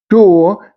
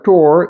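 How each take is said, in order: First: The final R sound is silent. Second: The final R sound is pronounced. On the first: "keeping the R sound silent at the end of a word" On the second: "in General American English"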